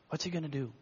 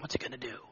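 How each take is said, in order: First: Said in the usual way. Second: Whispered wondering; crowd whispering. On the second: Retold or imitated. Preacher voicing the crowd whispering in suspense. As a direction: hush it like an anxious onlooker.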